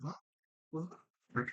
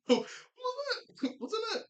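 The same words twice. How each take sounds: First: Said in the usual way. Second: Very high, slow, silly mock voice; mock squeaky confusion. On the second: Recapping the funny cop scene, very high slow mock voice. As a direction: stretch it out in a squeaky cartoon voice. Retelling cops' confusion, laughing.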